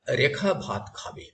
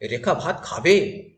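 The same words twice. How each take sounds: First: The voice falls at the end. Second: The voice rises at the end.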